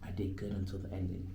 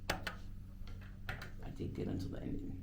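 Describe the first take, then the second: First: Said in the usual way. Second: Slow whispered self-reassurance; whispered repeat. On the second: Real, not acted. DJ consoling himself after a flubbed take, slow whisper. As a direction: breathe it out to yourself, slowly.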